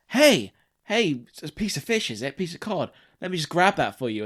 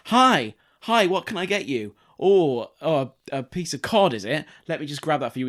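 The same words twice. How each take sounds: First: Much higher mock shop-assistant greeting; sing-song customer service patter; chirpy shop server. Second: Sing-song customer service patter; chirpy shop server. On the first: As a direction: play the overeager chip shop worker again. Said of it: "they're like". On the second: Retold or imitated. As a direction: play the overeager chip shop worker.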